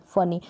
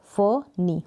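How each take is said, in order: First: Said in the usual way. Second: फनी split as fuh, then nee; broken into syllables. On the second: Shown as a demonstration. Teacher breaking a two-syllable word, फनी in two parts. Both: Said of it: "तो इनको जब break करेंगे".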